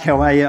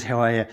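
First: Quick, higher, louder offhand how are you; casual throwaway greeting. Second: Sincere concern. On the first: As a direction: toss it off without caring about the answer. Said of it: "I don't really want you to tell me how you are". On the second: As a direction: ask it as if you truly want to know. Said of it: "you're convinced that she's concerned about how you are". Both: Retold or imitated.

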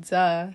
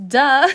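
First: Said in the usual way. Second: High, loud sarcastic duh; loud mocking duh. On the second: Shown as a demonstration. Reader mocking Libra with a loud sarcastic duh. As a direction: blast out a snotty duh. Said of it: "you don't have to say it like that".

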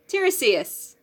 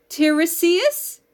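First: Tiresias said firmly with a falling end, tih-REE-see-as; settled pronunciation. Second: Tiresias said slowly as a question, TIR-ee-see-as with a rising end; unsure pronunciation. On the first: Host settling the Greek name for her co-host, sure. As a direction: land on Tiresias with confidence. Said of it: "T E I R E S I A S?". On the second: Podcast host unsure of a Greek name, tentative. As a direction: sound out Tiresias hesitantly, tone lifting at the end. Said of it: "I have no idea how to pronounce this". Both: Shown as a demonstration.

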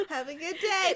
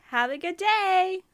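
First: Customer service voice. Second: High, slow, sugary-sweet politeness; customer service voice. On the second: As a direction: fake nice to a rude customer. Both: Retold or imitated. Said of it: "You see that tone?".

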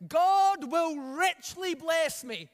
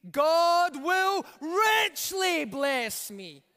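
First: Loud, slow group shout of the line; loud call for the church to repeat; shouted together. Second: Richly held long and shouted, the whole line slow and loud; the whole church shouting with richly punched; stress on richly. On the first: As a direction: lead the congregation in a big declaration. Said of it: "Everybody shout this". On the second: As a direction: lean hard on the word richly. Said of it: "Let's emphasize the word richly". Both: Shown as a demonstration.

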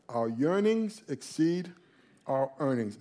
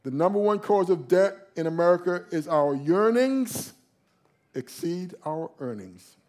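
First: Slow, soft repeat. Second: Said in the usual way. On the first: Shown as a demonstration. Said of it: "repeated slowly, softer". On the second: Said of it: "repeats the phrase".

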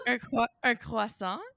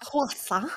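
First: Croissant with French r and nasal end. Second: Croissant echoed softly with a French nasal; whisper-copy croissant the French way, ksɑ̃; mock French croissant. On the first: Shown as a demonstration. Cohost asks her French friend to say croissant, French pronunciation. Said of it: "can you say croissant". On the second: Cohost softly echoes her friend's French croissant, imitating.

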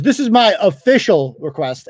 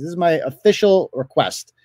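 First: Said in the usual way. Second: Mocking weight on "official", falling; stress on official. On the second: Vlogger mocks the man's demand, stressing "official". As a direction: lean on "official" to ridicule it. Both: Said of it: "as opposed to the unofficial request".

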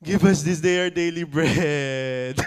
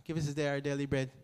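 First: Pleading bread line, louder, laughing edge; louder mock plea. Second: Fast, soft rote line; quick quiet recital. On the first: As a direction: ask for bread like you mean it. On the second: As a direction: mutter it quickly as routine. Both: Shown as a demonstration. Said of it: "that's how real it is".

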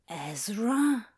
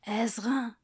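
First: Said in the usual way. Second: Breathy whispered name. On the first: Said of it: "Ezra? whisper test". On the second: Shown as a demonstration. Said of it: "voice test whispered".

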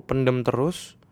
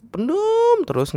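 First: Said in the usual way. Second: PENDEM stretched long and very high; emphatic, lengthened "pendem"; drawn-out emphasis. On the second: Real, not acted. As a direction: hold "pendem" on a high, slow note. Repeats phrase, stretched for emphasis.

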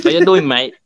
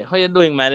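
First: Light mock English accent, a touch higher; English twang. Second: Lightly voiced Jamaican vendor, a touch higher. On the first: YouTuber retells a tourist greeting a Jamaica vendor, mock English accent. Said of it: "the person come with the English twang". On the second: Vendor answers the foreign tourist, lightly voiced Jamaican. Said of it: "Then the vendor say".

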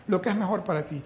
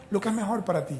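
Both takes have the same delivery.

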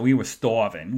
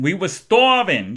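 First: Said in the usual way. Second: STARVING drawn out high and loud; emphatic repeat. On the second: Real, not acted. Hungry friends finding pizza, "starving" drawn out emphatically. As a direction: stretch out "starving", louder and higher.

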